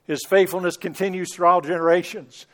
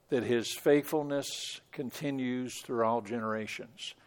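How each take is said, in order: First: Scripture declared with force, stress on all; recited scripture. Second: Quiet, low closing reflection on the psalm; soft reminder. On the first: Retold or imitated. Preacher quoting the psalm in a strong ringing voice. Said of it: "that last verse of the passage". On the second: Real, not acted. Pastor softly reminding the congregation, quiet and low. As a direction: lay it gently on the listeners. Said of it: "we need to be reminded of that".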